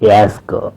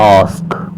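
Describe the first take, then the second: First: The vowel is front, between a and e. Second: The vowel is open and back, mouth wide. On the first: The speaker calls it wrong. "Not యాస్క్" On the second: The speaker calls it right. "It is ఆస్క్"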